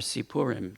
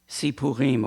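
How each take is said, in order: First: It is said in an Ashkenazi pronunciation. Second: It is said in a non-Ashkenazi pronunciation.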